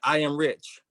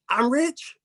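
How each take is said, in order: First: It is said as a forceful statement. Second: It is said with amazed, questioning disbelief.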